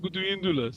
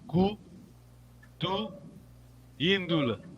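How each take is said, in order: First: The syllables flow together as one word. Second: The syllables are separated by pauses. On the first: The speaker calls it right. "when you talk, you say ... it comes like a word, one word" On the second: The speaker calls it wrong. "You don't say, you don't pause. You don't say"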